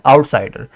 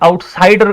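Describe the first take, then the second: First: It is said lightly, without extra force. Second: It is said with extra force and emphasis. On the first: The speaker calls it right. "So this is unstress syllable" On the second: The speaker calls it wrong. "Outsider अगर आप पढ़ेंगे तो ये गलत हो जाएगा"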